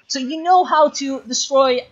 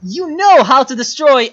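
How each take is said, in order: First: Higher, slow, dragged-out exasperation; exasperated high plea, slowed right down; exasperated scolding. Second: Higher and louder, a real frustrated rebuke; louder, higher frustrated scolding; angry scolding. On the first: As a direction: plead with the player in disbelief, drawn out. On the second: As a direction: raise the voice at the player in real anger. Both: Real, not acted. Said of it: "I'm mad at you right now".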